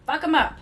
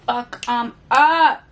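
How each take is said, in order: First: Higher, snappier take with the stress on 'em; quick chirpy cheer. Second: Slow, louder, savoured threat; slow growl. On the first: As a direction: fire it off brightly, leaning on 'em. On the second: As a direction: drag out each word like a cheer for revenge. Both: Pretend. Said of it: "Fuck 'em up".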